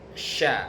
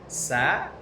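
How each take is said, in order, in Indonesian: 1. Suku kata ini diawali bunyi sh. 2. Suku kata ini diawali bunyi s biasa.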